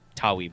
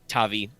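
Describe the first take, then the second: First: The middle consonant is a W sound. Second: The middle consonant is a V sound. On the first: "should technically be Tawi" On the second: "V's to be hard"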